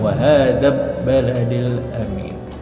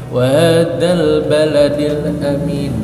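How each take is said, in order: First: The l sound merges into the following b. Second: The l sound is clearly pronounced before 'baladil'. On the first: The speaker calls it wrong. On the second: The speaker calls it right. "lamnya bisa dilihat atau bisa dibaca"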